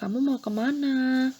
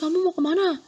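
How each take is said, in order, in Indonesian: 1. Ditanyakan dengan suara lembut. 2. Ditanyakan dengan suara keras dan membentak. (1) "lebih sopan, lebih halus"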